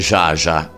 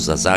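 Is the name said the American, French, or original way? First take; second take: original; French. First: The name is pronounced in its original way. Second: The name is pronounced in a French-like way. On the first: This is the correct pronunciation. The speaker calls it right. "la pronuncia esatta sarebbe Zsa" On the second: This is how Italians usually say it. The speaker calls it wrong. "la pronunciamo un pochino alla francese"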